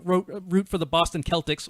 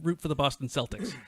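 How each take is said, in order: First: Celtics begins with a hard K sound. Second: Celtics begins with a soft S sound. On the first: This is not how the team is called locally. The speaker calls it wrong. "We didn't v- root for the Boston Celtics" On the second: This is how the team is called locally. The speaker calls it right. "We root for the Boston Celtics"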